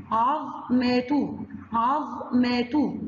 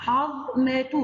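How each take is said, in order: First: عظمة drawn out slowly, each syllable held; slow syllable-by-syllable reading; slow stretched syllables. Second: Said in the usual way. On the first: Shown as a demonstration. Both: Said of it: "ظا سكون".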